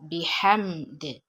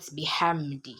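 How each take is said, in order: First: The word ends on the consonant d. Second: The word ends with a short i vowel. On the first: The reciter is stopping at this word. The speaker calls it right. "when you're stopping, you cancel out the vowel" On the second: The reciter continues without stopping. The speaker calls it wrong. "when you're pronouncing it normally, it should be bihamdi"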